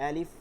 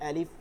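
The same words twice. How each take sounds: The two takes are said the same way.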